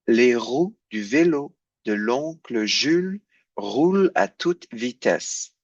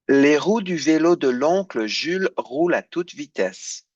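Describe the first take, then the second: First: The sentence is said slowly. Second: The sentence is said at normal speed.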